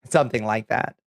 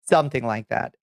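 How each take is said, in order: Both takes have the same delivery.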